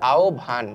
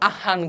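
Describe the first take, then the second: First: The cluster is pronounced with its sounds reordered. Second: The cluster is pronounced letter by letter as spelled. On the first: The speaker calls it right. "আমি তোমাদেরকে একটু উচ্চারণটা শিখাই দিচ্ছি" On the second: The speaker calls it wrong. "এটার উচ্চারণ কেউ আহ্বান করিও না"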